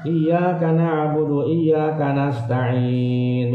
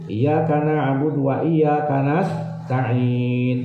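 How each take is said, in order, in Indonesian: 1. 'wa' tidak dibaca sebelum frasa kedua. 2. 'wa' dibaca sebelum frasa kedua. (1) "tidak pakai wa" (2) "Ada wawunya kan?"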